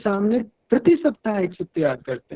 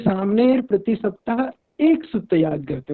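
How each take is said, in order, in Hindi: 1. जोर 'prati saptah' पर है। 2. जोर 'ek' शब्द पर है। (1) "यदि प्रति सप्ताह पर जोर दे रहे हैं" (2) "एक ही सूत्र पर अगर जोर दे रहे हैं"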